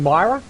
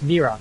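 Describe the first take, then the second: First: The word sounds like 'Myra'. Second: The word sounds like 'mirror'. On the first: The speaker calls it wrong. "I keep saying Myra" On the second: The speaker calls it right. "but it's Mirror"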